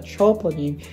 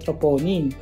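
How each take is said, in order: First: It is said with an American pronunciation. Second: It is said with a Filipino pronunciation. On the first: This is how the locals say it. "Ang tawag nila dito" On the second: This is how the speaker used to say it. "Pero dati, ang tawag ko"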